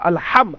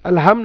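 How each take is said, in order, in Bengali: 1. "h" কর্কশ, গলার মাঝখান থেকে আসে। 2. "h" হলো একটি সাধারণ, হালকা শ্বাস। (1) "হা উচ্চারণ করেছি আমরা কন্ট্রোলের মধ্য থেকে" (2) "আলহাম না"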